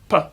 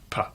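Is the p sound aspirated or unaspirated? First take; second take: unaspirated; aspirated. First: The p is said without a puff of air. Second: The p is said with a puff of air.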